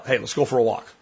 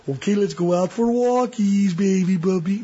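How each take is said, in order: First: Said in the usual way. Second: High, sing-song puppy coo; mock baby talk. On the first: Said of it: "needs you to be assertive". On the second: Owner cooing to puppy about a walk, high baby voice. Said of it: "you can't be assertive when you're like".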